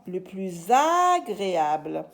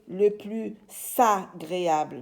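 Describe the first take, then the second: First: The s of plus links to agréable as z. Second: The s of plus is not linked as z. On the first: The speaker calls it right. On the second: The speaker calls it wrong. "Je ne vais pas dire"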